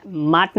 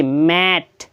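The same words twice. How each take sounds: First: माट said with a long aa, the wrong way; माट stretched as "maat" to show the mistake. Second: मैट said with a short flat a, like English "mat"; मैट with the open a of "cat", not a long aa. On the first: Teacher showing students the reading to avoid, long aa. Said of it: "नहीं पढ़ेंगे". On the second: Teacher correcting students' reading, short a sound. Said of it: "यहाँ माट नहीं पढ़ेंगे". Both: Shown as a demonstration.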